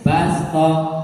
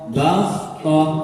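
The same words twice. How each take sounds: First: The s sound is light and plain. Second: The s sound is heavy and emphatic. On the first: The speaker calls it right. "maka diganti" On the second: The speaker calls it wrong.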